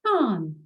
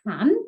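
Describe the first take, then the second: First: Can with the vowel stretched long, "caan"; to bach long vowel. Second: Said in the usual way. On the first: Shown as a demonstration. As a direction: hold the a in can longer. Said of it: "to extend the vowel sound". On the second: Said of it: "Have a listen".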